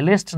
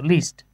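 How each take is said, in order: First: "লিস্ট" said with a short e, like "lest"; "লিস্ট" with an e vowel instead of ee; mispronounced least. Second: "লিস্ট" said with a long ee, "leest"; "লিস্ট" as English "least"; correct least. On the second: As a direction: say "লিস্ট" with an ee vowel, not "lest". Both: Shown as a demonstration. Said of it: "লিস্ট না কিন্তু".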